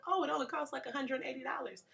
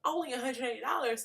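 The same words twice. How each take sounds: First: Imitating a breezy classmate in a much higher voice; cavalier classmate. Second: High-pitched mock disbelief at the price; incredulous inner reaction. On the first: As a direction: toss off the price lightly, pitched way up. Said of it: "she so cavalierly said". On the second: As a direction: echo it back as if you can't believe it. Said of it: "And I'm thinking".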